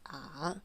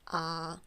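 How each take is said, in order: First: The pitch dips down then comes back up. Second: The pitch stays high and level. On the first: "it's kind of like a V or a U" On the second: "It's just a really high and flat tone"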